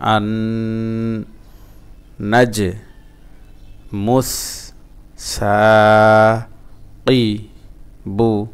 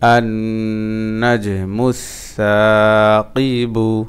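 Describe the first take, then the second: First: Each syllable is said separately with breaks. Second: The syllables flow together without breaks.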